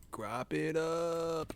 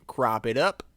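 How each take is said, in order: First: Soft slow repeat. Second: Said in the usual way. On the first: Shown as a demonstration. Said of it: "repeats phrase softly". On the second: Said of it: "repeats phrase".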